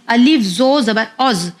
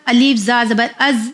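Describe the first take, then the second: First: "औज़" with a rounded o-like vowel and heavy z. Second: "अज़" with a thin a and light z. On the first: Teacher correcting the mistake, heavy rounded "औज़". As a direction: spell out "अलिफ जो ज़बर औज़" with full rounded vowels. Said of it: "नहीं, अलिफ जो ज़बर औज़". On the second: Teacher showing the usual mistake, thin "अज़". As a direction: spell out "अलिफ जा ज़बर अज़" with thin vowels. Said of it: "यानी इस तरह साउंड आता है". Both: Shown as a demonstration.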